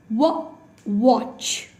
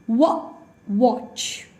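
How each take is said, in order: The two takes are said the same way.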